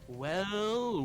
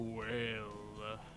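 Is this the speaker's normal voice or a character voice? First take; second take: normal voice; character voice. First: It is said in the speaker's ordinary voice. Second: It is said in a put-on character voice. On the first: "you started that three at your normal voice" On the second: "by number three, you were at knocked"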